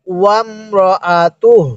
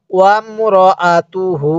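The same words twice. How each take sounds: First: ওয়ামরাআতুহ ended on a breathed h, no final vowel; slow ওয়ামরাআতুহ, cut off on h; waqf stop. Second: ওয়ামরাআতুহু with the final hu voiced and held; slow ওয়ামরাআতুহু, carry the ending on a long u; joined reading. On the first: Teacher showing learners a stop here, slow ওয়ামরাআতুহ with silent-vowel ending. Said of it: "এখানে ওয়াকফ করি". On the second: Teacher showing joined reading without a stop, drawn-out ওয়ামরাআতুহু. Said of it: "মিলিয়ে পড়ব". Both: Shown as a demonstration.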